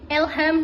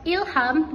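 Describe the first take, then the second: First: The first vowel is an e sound. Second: The first vowel is an i sound. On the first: The speaker calls it wrong. "fonem I dilafalkan menjadi E" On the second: The speaker calls it right. "Lafalan bakunya terdiri dari kata ilham"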